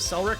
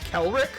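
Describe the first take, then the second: First: The name begins with an S sound. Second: The name begins with a K sound. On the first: "I'm going to pronounce it Selric" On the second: "I think it's pronounced Kelric, but that sounds weird to me"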